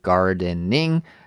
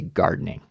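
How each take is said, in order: First: Every syllable is pronounced clearly and fully. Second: The syllables are squeezed together quickly. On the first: "instead of saying gardening" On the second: "We kind of smush all of the syllables together"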